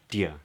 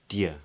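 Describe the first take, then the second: First: The two words merge into one quick syllable. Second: The same.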